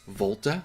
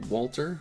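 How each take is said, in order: First: The name begins with a V sound. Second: The name begins with a W sound.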